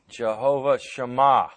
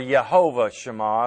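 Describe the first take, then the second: First: The first word starts with a J sound. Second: The first word starts with a Y sound.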